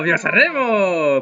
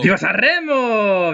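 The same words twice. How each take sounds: First: Put-on lighter Spanish accent; slower repeat with a hint of Spanish accent. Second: Slow, exaggerated Spanish accent. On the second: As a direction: sing out the cheer in a Spanish accent. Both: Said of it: "Pourquoi je prends l'accent espagnol".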